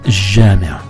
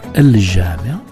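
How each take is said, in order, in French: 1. Le son l se fond dans le son j. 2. Le son l de l'article se prononce avant le j. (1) "mais jama" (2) "on ne dira pas al-jama"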